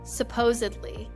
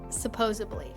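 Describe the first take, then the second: First: The middle consonant is a 'd' sound. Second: The middle consonant is a 'b' sound. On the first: The speaker calls it right. "What they mean is" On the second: The speaker calls it wrong. "not ... They are confusing their B's and D's"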